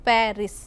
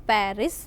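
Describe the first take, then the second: The two takes are said the same way.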